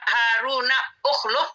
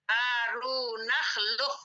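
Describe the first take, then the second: First: A separate 'u' vowel starts the second word. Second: The words run together with no 'u' vowel. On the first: The speaker calls it wrong. "Kenapa enggak Haruna ukhluh?" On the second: The speaker calls it right. "Di sini alifnya tidak dibaca"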